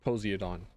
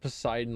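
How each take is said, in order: First: The E and I are sounded separately. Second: The E and I blend into one vowel.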